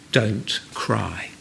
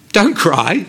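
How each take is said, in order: First: Quiet, lowered voice with a falling close; soft and low. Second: Higher, lifting at the end as if questioning it; incredulous quote. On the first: Jesus to a grieving widow, soft and low. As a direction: say it low and hushed, falling at the end. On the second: Preacher imagining saying this at a funeral, incredulous. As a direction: quote it as an unthinkable thing to say. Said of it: "can you imagine saying this". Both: Retold or imitated.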